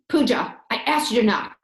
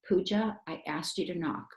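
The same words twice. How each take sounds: First: It is said in an angry fighting voice. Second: It is said in a calm talking voice. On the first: The speaker is being mean while mad. The speaker calls it wrong. "So I don't use a fighting voice" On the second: The speaker is mad but stays respectful. The speaker calls it right. "When I'm mad, I use a talking voice"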